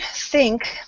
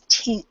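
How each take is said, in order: First: It begins with a th sound. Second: It begins with a plain t sound. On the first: The speaker calls it right. "the T H sound, um, like I went through before, um, is the tongue between the top and uh, bottom teeth" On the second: The speaker calls it wrong. "it comes through when you're speaking as tink"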